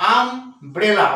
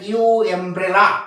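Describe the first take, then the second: First: The word begins with a short 'uh' sound. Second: The first letter is said separately as 'yoo'. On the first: The speaker calls it right. "কিন্তু কি বলি আমব্রেলা" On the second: The speaker calls it wrong. "এরকম বলে না ইউ এমব্রেলা তাও বলি না"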